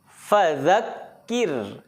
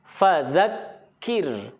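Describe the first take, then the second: The two takes are said the same way.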